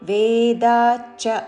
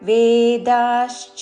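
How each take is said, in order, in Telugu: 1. ఈ సంయుక్తాన్ని 'chch' అని ఉచ్చరిస్తారు. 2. ఈ సంయుక్తాన్ని 'shch' అని ఉచ్చరిస్తారు.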